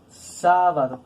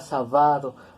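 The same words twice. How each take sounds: First: The stress is on the third-to-last syllable. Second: The stress is on the second-to-last syllable. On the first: The speaker calls it right. "nosotros pronunciamos sábado" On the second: The speaker calls it wrong. "tiene que sonar como palabra grave y pronunciarla sábado"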